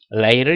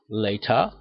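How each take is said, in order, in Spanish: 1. Se dice con acento americano. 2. Se dice con acento británico. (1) "inglés americano" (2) "inglés británico"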